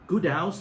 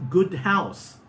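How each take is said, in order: First: The h at the start of house is dropped. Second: The h at the start of house is pronounced.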